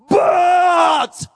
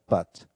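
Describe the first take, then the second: First: The word is said with strained, emotional emphasis. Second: The word is said plainly and neutrally. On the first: It expresses an inner struggle. "a spiritual pronunciation ... It pronounced like this" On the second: It is just the ordinary conjunction. "not only pronounced as but"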